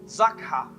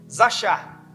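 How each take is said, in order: First: It is said with a Hebrew accent. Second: It is said with a Brazilian Portuguese accent. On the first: "para falar no hebraico é zakha" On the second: "a gente gosta de falar meio brasileirado"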